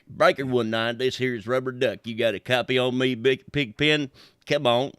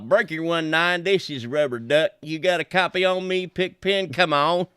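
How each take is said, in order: First: It is said in a deeper, bassier voice. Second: It is said in a normal voice.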